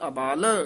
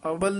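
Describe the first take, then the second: First: The second vowel is long. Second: The second vowel is short. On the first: The speaker calls it right. "सुनो अबाल उच्चारण करना है" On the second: The speaker calls it wrong. "अबल नहीं कहना है"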